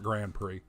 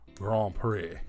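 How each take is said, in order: First: It is said plainly, like the car name. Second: It is said in a fancy, French-sounding way. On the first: It sounds like the name of an ordinary car. The speaker calls it wrong. "not Grand Prix. It's not a Pontiac Grand Prix" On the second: It makes the speaker sound wealthy. The speaker calls it right. "Makes you sound like you got a few bucks in your pocket"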